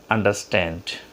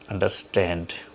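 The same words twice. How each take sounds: No difference in how they are said.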